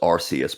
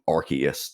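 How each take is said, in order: First: The start sounds like the word 'arse'. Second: The start does not sound like 'arse'. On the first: This is the original pronunciation. "the original pronunciation was Arceus" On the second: This is the changed pronunciation. "they changed it phonetically to become Arceus"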